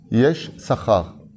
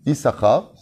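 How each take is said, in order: First: The name is split into two words. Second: The name is said as one word. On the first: "Pour qu'on coupe le mot en deux" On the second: "on le prononce Issachar"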